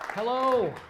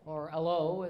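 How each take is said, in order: First: The word begins with a clear h sound. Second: The word begins without any h sound.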